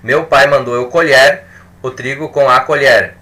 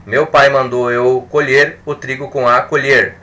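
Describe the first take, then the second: Both takes have the same delivery.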